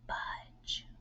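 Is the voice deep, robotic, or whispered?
whispered. The word is whispered without full voice. "Whisper it"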